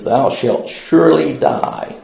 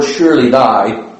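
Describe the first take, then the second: First: "surely" drawn out slowly and weighted; stress on surely. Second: Said in the usual way. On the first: Shown as a demonstration. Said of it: "it says". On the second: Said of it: "the word".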